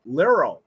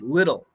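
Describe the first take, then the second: First: The middle consonant sounds like an R. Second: The middle consonant is a quick D-like tap. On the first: The speaker calls it wrong. "If it's an R, it's liro" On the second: The speaker calls it right. "That's a flap T"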